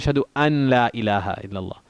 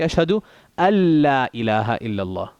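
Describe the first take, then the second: First: The n is pronounced separately before the l. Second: The n merges fully into the l, no nasal. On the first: The speaker calls it wrong. "Somebody will say" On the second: The speaker calls it right. "but it's actually"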